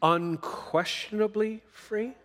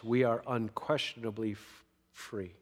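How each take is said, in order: First: "Unquestionably free?" slow, high, with a long rising question tune on "free"; questioning rise. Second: "we are unquestionably free" with a firm falling tune that drops away on "free"; emphatic answer. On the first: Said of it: "Did Jesus truly make us free?". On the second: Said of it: "the answer is emphatically yes". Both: Shown as a demonstration.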